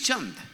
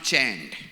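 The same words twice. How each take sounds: First: The name is said with an Indian pronunciation. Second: The name is said with an American pronunciation. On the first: The speaker calls it right. "that's the pronunciation of my name" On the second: The speaker calls it wrong. "My name is not Chand"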